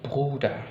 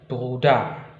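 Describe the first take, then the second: First: The stress is on the first syllable. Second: The stress is on the second syllable. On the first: The speaker calls it right. "Tapi Bruder" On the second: The speaker calls it wrong. "bukan Bruder"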